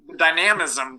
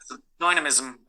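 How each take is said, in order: First: It is said in an American accent. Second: It is said in a British accent.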